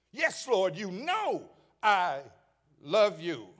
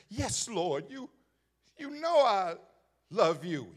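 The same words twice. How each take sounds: First: Said in the usual way. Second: Firm, emphatic yes Lord; strong answer. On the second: Acted. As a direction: say it with strong conviction. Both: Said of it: "He's strong with it the first time".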